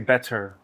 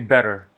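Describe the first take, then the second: First: The t in the middle is clear. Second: The t in the middle is soft. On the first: This is how the singer says it. "He say better ... you really hear the t" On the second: This is the everyday way of saying it. "like we say better"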